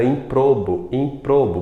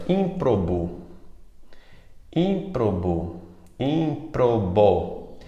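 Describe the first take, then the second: First: Improbo mispronounced with stress on PRO; stress on middle syllable. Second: Ímprobo said slowly with stress on ÍM; stress on first syllable. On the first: Teacher showing students the common error, stress on PRO in improbo. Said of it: "de forma errada, ... pronunciando como paroxítona". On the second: Teacher dictating a problem word to the class, stress on ÍM in ímprobo. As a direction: sound out ímprobo, IM-pro-bo, first syllable strongest. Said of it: "tem um erro de prosódia". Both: Shown as a demonstration.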